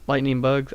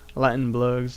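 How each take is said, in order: First: It is said in a plain, neutral accent. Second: It is said with a strong drawling twang.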